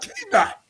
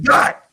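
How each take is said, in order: First: The name begins with a spoken K sound. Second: The name is said without any K sound. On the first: The speaker calls it wrong. "It's not K Dot" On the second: The speaker calls it right. "The K is silent"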